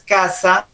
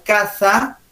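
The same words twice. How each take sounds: First: "casa" said with a plain S; "casa" with S, no lisp; S pronunciation. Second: "casa" with TH in place of S, slow; tongue to teeth on "casa", as caza; slow "casa" said as "catha"; Castilian Z. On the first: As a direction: say casa with a hissed S, the home. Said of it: "un sonido como si fuera la S". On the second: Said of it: "tienes que pronunciarla con los dientes". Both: Shown as a demonstration.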